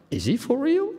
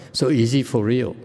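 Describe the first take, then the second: First: Mock disbelief, pitched way up; incredulous question. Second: Said in the usual way. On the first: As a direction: imitate their doubt, high and rising. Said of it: "and they said". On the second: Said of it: "You're the expert".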